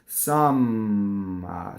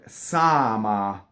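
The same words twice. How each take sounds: First: The M sound is held long and doubled. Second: The M sound is short and single. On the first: The speaker calls it wrong. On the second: The speaker calls it right.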